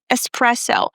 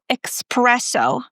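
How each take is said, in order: First: It has no k sound after the first vowel. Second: It has a k sound after the first vowel. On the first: The speaker calls it right. "We don't have the k sound. It's es espresso" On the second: The speaker calls it wrong. "It's not espresso. A lot of people mispronounce this"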